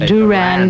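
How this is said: The name is said the American way. "We say"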